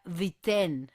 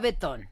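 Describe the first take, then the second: First: The name sounds like 'BEE-ten'. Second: The name sounds like 'beh-TON'. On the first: The speaker calls it right. "Según Gemini se pronuncia Viten" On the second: The speaker calls it wrong. "Yo le decía Betón, así no se pronuncia"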